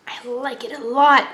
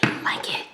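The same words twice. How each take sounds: First: Said in the usual way. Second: Soft whispered approval; whispering. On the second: Real, not acted. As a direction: breathe it out quietly.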